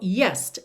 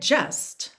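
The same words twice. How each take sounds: First: The word begins with a 'y' sound. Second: The word begins with a 'j' sound. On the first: It helps the singer reach the intended note. The speaker calls it wrong. "alterou a, a consoante J pelo Y. E aí ficou just" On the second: It keeps the word as it is normally spoken. The speaker calls it right. "eu cantaria just, right? Que é realmente a palavra correta aqui"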